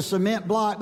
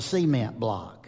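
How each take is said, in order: First: "cement" said se-MENT, stress on the second syllable; proper pronunciation. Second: "cement" said SEE-ment, stress on the first syllable; North Georgia pronunciation. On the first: Shown as a demonstration. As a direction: say "cement" as se-MENT, the professor's correct way. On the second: Retold or imitated. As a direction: say "cement" as SEE-ment, the way they did back home. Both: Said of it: "make sure that I get the emphasis on the right syllable".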